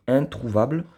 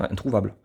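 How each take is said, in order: First: "Introuvable" set apart and pitched higher, rising at the end; "Introuvable" stressed with raised pitch after a pause; emphatic repeat. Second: Said in the usual way. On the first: Real, not acted.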